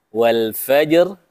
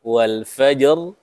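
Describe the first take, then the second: Both takes have the same delivery.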